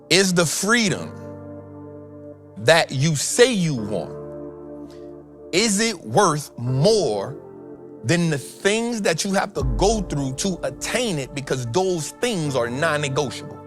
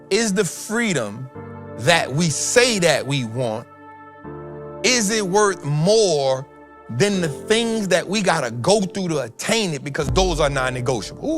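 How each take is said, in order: First: It is said at a slower pace. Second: It is said at a faster pace.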